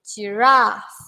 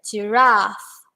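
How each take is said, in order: Both takes have the same delivery.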